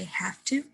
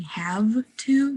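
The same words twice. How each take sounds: First: "have to" said as "haff to", softer; V turned to F. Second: "have to" with a full voiced V; unassimilated V. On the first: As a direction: devoice the V of "have to" into F. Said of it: "The V turns into more of a F sound". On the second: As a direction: keep the V buzzing in "have to". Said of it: "instead of saying". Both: Shown as a demonstration.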